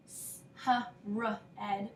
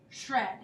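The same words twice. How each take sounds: First: "s-, h-, r-, ed" sound by sound, with gaps; sounded out separately. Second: Said in the usual way. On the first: Shown as a demonstration. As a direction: split "s-, h-, r-, ed" into isolated sounds. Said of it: "We don't say". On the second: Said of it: "we say shred".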